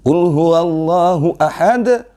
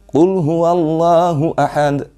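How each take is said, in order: First: The final consonant has an exaggerated, strong bounce. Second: The final consonant has only a light, plain release. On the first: The speaker calls it wrong. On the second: The speaker calls it right.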